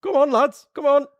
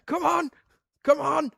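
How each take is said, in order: First: Higher, louder mock rally cry; hammed-up coach egging them on; mock urging Curtis. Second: High, hurried mock urging; much higher hurry-along in jest; Fast Show family impression. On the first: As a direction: hurry the lads along in jest. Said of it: "You're going". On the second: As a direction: chivvy like the running family sketch. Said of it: "like in the Fast Show with that family".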